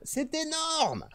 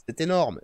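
First: Very high, very slow "énorme" stretched out; exaggerated amazement. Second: Said in the usual way. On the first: Streamer hamming up awe at the database, high and slow. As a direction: hoot "c'est énorme" way up high and drawn out.

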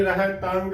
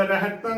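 First: ਰਹਿ ਤੰਗ with a sounded g at the end; wrong pronunciation. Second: ਰਹਿ ਤੰ ending on a pure nasal, no g; correct pronunciation. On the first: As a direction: release a hard g in ਰਹਿ ਤੰਗ. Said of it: "ਗਲਤ ਉਚਾਰਨ ਹੋਵੇਗਾ". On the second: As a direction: say ਰਹਿ ਤੰ as "reh-tan". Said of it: "ਸ਼ੁੱਧ ਉਚਾਰਨ". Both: Shown as a demonstration.

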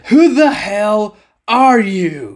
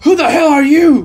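First: Slow, deliberate threat; slow menacing repeat. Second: Higher and louder, alarmed shout; startled demand. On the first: Captain repeating his demand to the silent figure, slow threat. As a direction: spell out each word with menace. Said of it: "I'm gonna ask you again". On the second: Captain challenging the masked stranger, alarmed shout. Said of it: "The older captain says". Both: A narrator's reading.

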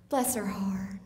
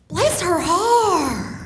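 First: Catty bless her heart. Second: High, slow and syrupy "Bless her heart", stretching "Bless"; sweet sincere bless her heart. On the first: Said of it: "the other one is". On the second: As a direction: pour on the sugary Southern sympathy. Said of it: "the first way is". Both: Shown as a demonstration.

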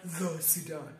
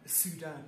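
First: "the" drawn out before "Sudan"; stress on THE. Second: Said in the usual way. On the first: Shown as a demonstration. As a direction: lean slowly on "the" in "the Sudan". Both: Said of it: "not the Sudan".

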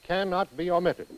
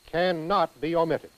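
Both takes have the same delivery.

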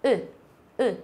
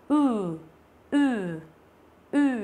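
First: "ừ" as a very short, light u with unrounded lips. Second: "ừ" as a drawn-out oo with pursed lips; long U. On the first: Teacher showing students the short vowel, "ừ" cut very short. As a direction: say "ừ" short, from the throat, lips spread like ư. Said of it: "chữ U ngắn thì mình đọc là ừ". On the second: Teacher showing students the long vowel, "ừ" stretched out. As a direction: hold "ừ" long, lips pushed forward, buzzing in the throat. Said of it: "chu miệng ra và mình lại đọc dài hơn". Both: Shown as a demonstration.

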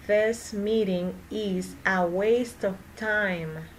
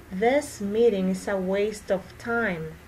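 First: Slow, careful, words spaced out; slow practice sentence; slow repeat. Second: Said in the usual way. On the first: Shown as a demonstration. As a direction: model it slowly for learners. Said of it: "teacher repeats sentence slowly for practice". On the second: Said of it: "teacher repeats sentence at normal speed".

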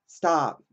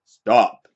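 First: Higher, timid "Stop" in his innocent voice; the meek version of the command. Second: The authoritative version of the command; commanding stop. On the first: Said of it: "Is it gonna be". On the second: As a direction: bark "Stop" to halt a robber. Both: Shown as a demonstration.

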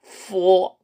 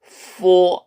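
First: Four, labiodental f; English f sound. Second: Lip on teeth, breathe out four; four, labiodental f; correct f sound. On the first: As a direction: bite the lip lightly for four. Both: Shown as a demonstration. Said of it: "이렇게 발음하십시오".

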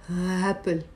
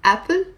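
First: Long h sighed before apple; hhh-apple, slow and wrong on purpose; apple with breathy h. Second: Said in the usual way. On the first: Shown as a demonstration. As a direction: open apple on a drawn-out breath. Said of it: "do you actually say apple or apple". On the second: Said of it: "do you actually say apple".

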